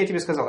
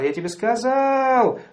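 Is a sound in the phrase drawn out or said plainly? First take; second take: plainly; drawn out. First: The phrase is said plainly with no lengthening. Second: A sound in the phrase is drawn out. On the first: "Не говорится просто" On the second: "Он тянет"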